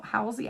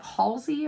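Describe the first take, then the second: First: "[name]" with an ow vowel and no L; first-syllable "HOW". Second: "[name]" with an aw vowel and sounded L; first-syllable "HAWL". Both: Shown as a demonstration. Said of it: "how you pronounce it".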